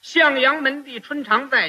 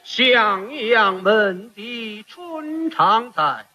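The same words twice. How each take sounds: First: It is said like ordinary plain speech. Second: It is recited in opera style with drawn-out resonant syllables.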